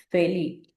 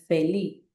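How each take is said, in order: The two takes are said the same way.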